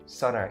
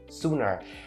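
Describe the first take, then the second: First: The first vowel is a short o sound. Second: The first vowel is a long u sound. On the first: The speaker calls it wrong. "don't turn its vowel into the short O sound" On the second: The speaker calls it right. "it's a straight up U sound"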